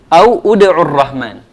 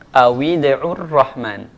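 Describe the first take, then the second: First: The w sound has no vowel after it. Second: The w sound is followed by an i vowel. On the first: This is the underlying form before joining. "aslinya au" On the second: This is how it is read when joined. "dia dikasih baris bawah"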